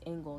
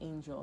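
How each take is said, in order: First: The name sounds like the word angle. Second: The name sounds like the word angel. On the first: The speaker calls it right. "her name is Angle" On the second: The speaker calls it wrong. "not Angel"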